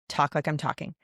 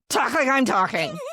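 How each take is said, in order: First: It is said in a calm, gentle voice. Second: It is said in a loud, yelling voice. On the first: The speaker calls it right. "you say it very calm" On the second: The speaker calls it wrong. "I'm not like yelling at my kids like that"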